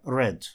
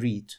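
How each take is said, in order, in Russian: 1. Гласный краткий, рифмуется с 'red'. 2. Гласный долгий, рифмуется с 'reed'. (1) "вторая и третья форма у него читаются почему-то read" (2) "а не read"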